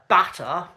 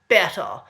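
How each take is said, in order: First: The vowel is an open standard 'a' sound. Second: The vowel is raised, sounding close to 'e'.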